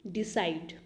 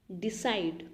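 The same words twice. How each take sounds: The two takes are said the same way.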